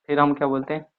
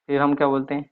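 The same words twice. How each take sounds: The two takes are said the same way.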